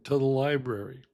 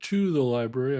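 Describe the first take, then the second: First: 'To' is reduced to a weak vowel. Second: 'To' is said in full with a clear vowel. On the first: "I'm saying" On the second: "I'm not saying"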